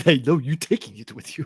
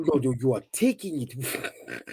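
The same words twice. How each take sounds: First: Imitating an African accent; mock the African accent. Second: Slow, bad African accent. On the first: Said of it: "It's just the way you said". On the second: Shown as a demonstration. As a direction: do a terrible African accent slowly. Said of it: "I have a terrible African accent".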